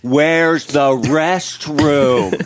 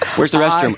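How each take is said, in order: First: The question is said very slowly. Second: The question is said at a normal speed.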